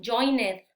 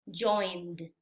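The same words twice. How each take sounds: First: Joined wrongly in two syllables, join-ed; common mispronunciation. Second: Joined in one syllable, ending in a voiced d; correct pronunciation. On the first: Teacher shows learners a common error, mispronounced. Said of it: "un error muy común es". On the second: Teacher models the correct past tense, carefully pronounced. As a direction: say "joined" as joind, silent e. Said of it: "La pronunciación correcta es". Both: Shown as a demonstration.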